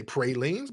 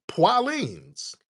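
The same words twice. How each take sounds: First: "pralines" said PRAY-leens; standard pronunciation. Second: "pralines" said PWAH-leens, high and stretched; high, drawn-out "pwah-leens" for "pralines"; Louisiana pronunciation. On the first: Host granting that locals know the standard, "pralines" as PRAY-leens. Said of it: "they know how to say pralines". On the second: Host insisting on the local way, "pralines" as high PWAH-leens. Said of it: "but it's pralines". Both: Shown as a demonstration.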